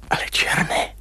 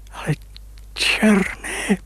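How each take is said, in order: First: Whispered, barely voiced; a stunned whisper to himself; hushed whisper. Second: Higher, amazed exclamation; suddenly seeing his young face; astonished cry. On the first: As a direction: breathe it out in awe. Startled at his reflection. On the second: Acted. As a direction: cry out in disbelief. Recognizes himself in the water.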